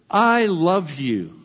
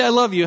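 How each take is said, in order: First: Slow and lingering, each word given its weight; tender declaration. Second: Said in the usual way. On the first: Shown as a demonstration. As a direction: say it gently, as if you truly mean it. Preacher models a tender declaration.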